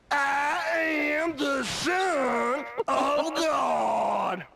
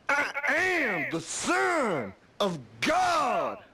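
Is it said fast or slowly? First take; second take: slowly; fast. First: It is said slowly. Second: It is said at normal, faster speed.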